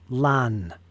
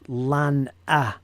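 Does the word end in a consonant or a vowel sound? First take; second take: consonant; vowel. First: It ends on the nasal sound, no vowel. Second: It ends with an added short vowel sound. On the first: "or is it lan?" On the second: "is it pronounced lan-a"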